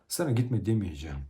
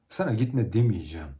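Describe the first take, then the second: Both takes have the same delivery.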